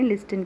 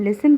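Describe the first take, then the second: First: The t sound is pronounced. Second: The t sound is silent. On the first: The speaker calls it wrong. "लिस्टन की बजाय" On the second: The speaker calls it right. "हम लिसन पढ़ें"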